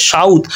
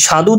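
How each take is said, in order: First: সাউথ as shaudh, a gliding to u; inserted short u. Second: Said in the usual way. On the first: Shown as a demonstration. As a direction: bring u in before the last sound of সাউথ. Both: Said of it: "মাঝখানে কিন্তু রস্যকার চলে এসেছে".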